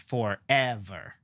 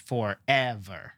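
First: The stress is on the middle syllable. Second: The stress is on the middle syllable.

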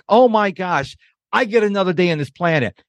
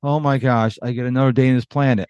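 First: It is said in an excited, happy tone. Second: It is said in a gloomy, weary tone.

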